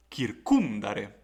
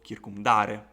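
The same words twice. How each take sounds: First: "kircumdare" slowly, with CUM punched loud; stress on antepenult. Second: "kircumdare" with a loud DA, next to last; wrong stress on penult. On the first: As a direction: hit the second syllable of "kircumdare", rush none of it. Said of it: "stress must fall on the previous syllable". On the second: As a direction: punch the third syllable of "kircumdare". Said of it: "and not, for example". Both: Shown as a demonstration.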